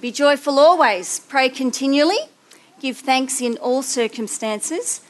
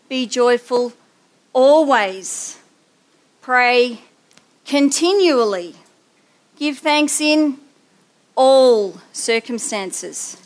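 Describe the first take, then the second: First: It is read plainly, without special emphasis. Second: The absolutes always, continually, all are emphasized.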